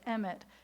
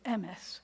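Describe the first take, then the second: First: The word is said with a Hebrew pronunciation. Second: The word is said with a Yiddish pronunciation. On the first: "in Hebrew, we would say" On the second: "In Yiddish, you would have said"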